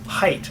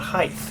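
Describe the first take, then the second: First: The word ends with a plain t sound. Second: The word ends with a th sound. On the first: The speaker calls it right. "it's height" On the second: The speaker calls it wrong. "not height. ... there is no such word as height"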